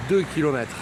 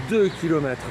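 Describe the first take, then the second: No difference in how they are said.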